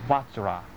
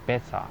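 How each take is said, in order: First: The word is said as "vajra". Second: The word is said as "besa". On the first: "梵语的念法就是Vajra" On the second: "或者Besa"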